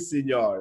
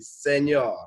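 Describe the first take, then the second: First: The first vowel sounds like 'ee'. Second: The first vowel sounds like 'eh'. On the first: The speaker calls it wrong. "you never say senor" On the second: The speaker calls it right. "It's supposed to be senor"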